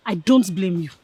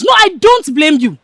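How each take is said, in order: First: Low-pitched, restrained reproach; measured, disdainful dismissal; contained scorn. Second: Loud, higher-pitched angry repeat; heated, contemptuous dismissal; scornful outburst. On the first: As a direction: hold the scorn in before the blow-up. Starts scolding her friend, still contained. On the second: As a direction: throw it at them with raised voice. Repeats it, now openly berating friend. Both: Acted.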